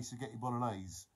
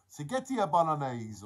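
First: Said in the usual way. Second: Louder mock-Italian accent. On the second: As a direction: savour it in a playful Italian accent. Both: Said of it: "we all have an Italian accent".

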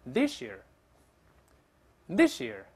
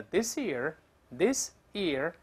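First: This year joined as "thi-sheer"; linked pronunciation. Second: This year as two separate words, clear s; slow careful reading. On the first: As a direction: say "this year" with s and y merged into sh. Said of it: "thus变成sh这个声音". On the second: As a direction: say "this year" slowly, "this... year". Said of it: "一般慢慢读叫". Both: Shown as a demonstration.

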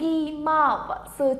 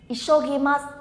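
First: "Ishogimasu" slowed, each syllable lengthened. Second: Said in the usual way. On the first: Shown as a demonstration. Teacher introducing word number five to learners, syllable by syllable. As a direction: draw out "Ishogimasu" sound by sound.

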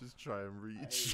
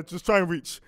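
First: "Just try and reach" slowly and evenly; slowly repeating the line as a joke; slow echo. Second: Put-on "Just try and reach" said loudly to the kids; louder, as if telling the kids to fend for themselves; louder parent line. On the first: Retold or imitated.

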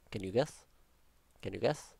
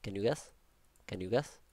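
The two takes are said the same way.

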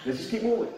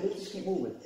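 First: Said in the usual way. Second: Calm quiet instruction. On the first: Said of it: "I didn't say all that". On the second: Shown as a demonstration. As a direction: settle everyone with a quiet word. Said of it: "I just said".

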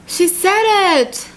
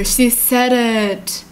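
First: High, drawn-out squeal of delight; high, stretched-out exclamation; thrilled reaction. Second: Slow, heartfelt sighing repeat; moved, overcome. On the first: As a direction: gush it slowly, pitch way up. Thrilled reaction to story's declaration. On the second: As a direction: let it sink in, stretching every word. Moved, slower repeat of the reaction. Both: Real, not acted.

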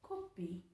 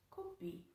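First: Coffee said low and flat, Korean style; low plain take. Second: Coffee said much higher and softer, as kopi; high soft take. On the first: Demonstrating coffee for viewers, low plain take. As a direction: say coffee as kopi, low and level. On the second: Repeating Coffee for viewers, high and soft. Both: Shown as a demonstration. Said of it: "Próxima palavra".

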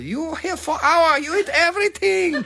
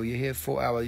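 First: Put-on very high-pitched accented scolding; comedy-routine impression. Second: Said in the usual way. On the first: Restaurant host throwing out a big eater, very high mock scolding. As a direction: shriek it as a comic accented scold. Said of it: "This is from a nineteen ninety something".

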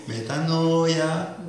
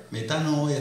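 First: Metanoia stretched slowly with a rising end; drawn-out Metanoia. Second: Said in the usual way. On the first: Shown as a demonstration. Preacher savoring the key word for the church, slow. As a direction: linger on every syllable of Metanoia.

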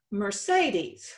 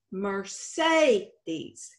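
First: Said in the usual way. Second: "Mercedes" slowly split, with a drawn-out SAY in the middle; stressed long A. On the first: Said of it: "let's take a look at another word". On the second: Shown as a demonstration. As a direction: stretch the second syllable of "Mercedes" as a long A. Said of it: "The second E sound is pronounced long".

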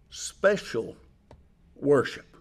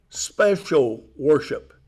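First: "special worship" said softly, almost under the breath; a quiet, hushed "special worship"; softly spoken. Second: "special worship" slow, with "special" leaned on; slow, emphatic "special worship"; stress on special. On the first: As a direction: drop the voice right down on "special worship". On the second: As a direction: drag out "special worship" and weight "special". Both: Shown as a demonstration.

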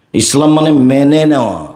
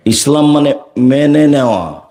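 The two takes are said the same way.

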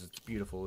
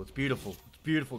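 First: Said in the usual way. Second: Rising delight. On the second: Real, not acted. Admiring the loot to viewers.

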